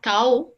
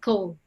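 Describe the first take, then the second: First: The vowel sounds like the 'ow' in cow. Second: The vowel is a light, plain 'o' sound. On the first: The speaker calls it wrong. "It's not cow" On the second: The speaker calls it right. "it's a ko actually"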